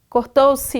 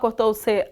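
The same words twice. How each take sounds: First: The final pronoun ends with an 'ee' vowel. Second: The final pronoun ends with an 'eh' vowel. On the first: The speaker calls it right. "o C que a gente pronuncia si" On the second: The speaker calls it wrong. "você não fala"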